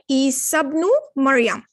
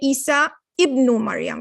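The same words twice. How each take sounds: First: The vowel starting ibnu is dropped and linked. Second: The vowel starting ibnu is pronounced separately. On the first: The speaker calls it right. "So you would say" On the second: The speaker calls it wrong. "You're not going to say"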